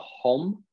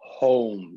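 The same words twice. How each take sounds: First: The vowel is not a plain O sound. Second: The vowel is a plain O sound. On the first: The speaker calls it wrong. "I think I heard more of a home" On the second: The speaker calls it right. "So it's just an O"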